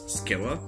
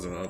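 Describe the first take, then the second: First: The name begins with an s sound. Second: The name begins with a z sound. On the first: The speaker calls it right. "I guess Scylla" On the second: The speaker calls it wrong. "it's not Zilla like Zilla Zilla like Godzilla Zilla"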